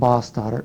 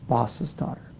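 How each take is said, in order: First: No extra syllable is said after 'boss'. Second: An extra 'iz' syllable follows 'boss'. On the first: The speaker calls it wrong. "it's not boss daughter" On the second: The speaker calls it right. "it's boss's daughter"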